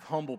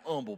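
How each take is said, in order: First: The word begins with a clear h sound. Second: The word begins without any h sound. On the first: "They don't have humble people" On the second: "they don't have H's. ... they have humble people"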